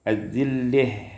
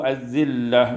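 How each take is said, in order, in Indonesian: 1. Vokal akhirnya condong ke e. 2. Vokal akhirnya adalah a terbuka biasa.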